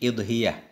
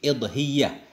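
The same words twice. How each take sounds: First: The y sound is short, single. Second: The y sound is held long, doubled. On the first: "Kasrah hamzah tanpa tasdid" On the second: "Kasrah hamzah tasdid"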